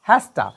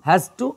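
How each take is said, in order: First: The words are run together as hasta. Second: Both words are said separately and in full.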